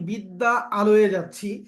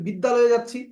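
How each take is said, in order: First: The two vowels are kept apart as separate words. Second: The two vowels merge into one single word. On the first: The speaker calls it wrong. "এটা কেমন শোনা যায়" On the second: The speaker calls it right. "ভালো শোনা যায়"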